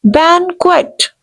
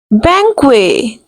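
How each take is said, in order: First: Banquet with a firm n and a final t; correct banquet. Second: Banquet with a silent t, "bang-kway"; wrong banquet. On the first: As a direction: press the n and sound the t in Banquet. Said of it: "You have to pressurize N". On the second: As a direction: drop the final t in Banquet. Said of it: "No, people used to pronounce". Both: Shown as a demonstration.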